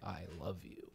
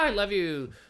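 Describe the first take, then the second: First: It is said earnestly and seriously, heartfelt tone. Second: It is said lightly and casually, playful tone. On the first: It is a real declaration of love. "that's different than like" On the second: It is friendly fun, not a real declaration. "you can tell by the tone, like being like, ah, I love you. You're so fun"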